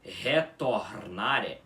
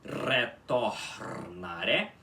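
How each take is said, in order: First: "retornare" with a throaty H-like first R, slow; wrong guttural R. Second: "retornare" slow with a trilled first R; correct rolled R. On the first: Teacher showing the mistake to avoid, slow. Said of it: "em vez de você pronunciar como relógio". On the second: Teacher showing the right way after the wrong one. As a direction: say "retornare" slowly with a tongue-tip trill. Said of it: "você tem que pronunciar como relógio". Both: Shown as a demonstration.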